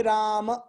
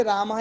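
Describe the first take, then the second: First: "राम" ending on an open short a, no h; "राम" with its last vowel left bare; no visarga. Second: "राम" ending in a breathed -ah; "राम" with a visarga h after the last a. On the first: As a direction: say "राम" as Rama without any final breath. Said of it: "इसमें विसर्ग नहीं है". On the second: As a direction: say "राम" as Ramaha, echoing the final vowel. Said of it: "विसर्ग बोलने से". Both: Shown as a demonstration.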